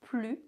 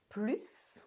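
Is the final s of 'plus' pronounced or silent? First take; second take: silent; pronounced. First: The final s sound is left silent. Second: The final s sound is clearly pronounced. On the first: It means no longer, as a negation. "Plus in negation. Don't pronounce the S" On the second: It means more. "Plus, more. Pronounce the S"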